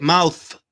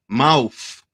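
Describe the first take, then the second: First: "mouth" with a proper th at the end; rejected pronunciation. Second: "mouth" pronounced "mouf"; F at the end. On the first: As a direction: say mouth carefully, tongue between the teeth for th. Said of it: "we don't say it mouth". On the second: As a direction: finish mouth on an F sound instead of th. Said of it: "We say mouth with an F at the end". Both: Shown as a demonstration.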